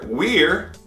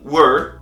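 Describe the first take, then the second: First: The word is said at a normal pace. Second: The word is said quickly and reduced.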